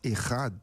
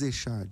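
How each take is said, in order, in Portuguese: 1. A consoante do meio é um som gutural de raspagem. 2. A consoante do meio é um 'sh' suave. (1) "se diz Errad" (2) "não se diz Echad"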